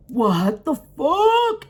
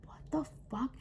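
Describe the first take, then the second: First: Long, drawn-out high disbelief; acted shock. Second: Very soft, voiceless whisper; in-her-head whisper. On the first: Teller looking over at the man, stretched-out shock. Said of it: "and then I'm just like". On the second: Retold or imitated. Teller's silent thought on seeing it, whispered. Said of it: "In my head, I'm like".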